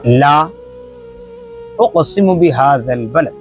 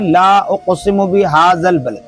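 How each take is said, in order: First: There is a pause after the first word. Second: It is said joined, without a pause.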